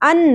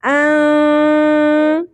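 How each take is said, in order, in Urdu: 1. نون کی آواز صاف اور مختصر ادا ہوتی ہے۔ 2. نون کی آواز چھپی ہوئی، غنہ والی اور لمبی کی جاتی ہے۔ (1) "ان نہیں پڑھنا" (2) "چھپا لینا ہے نون کی آواز کو اور کھینچنا بھی ہے"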